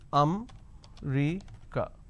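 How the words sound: The word is said with three syllables. "in northern part of the country, they pronounce this as"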